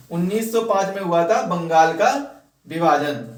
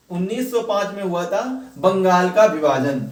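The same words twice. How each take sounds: The two takes are said the same way.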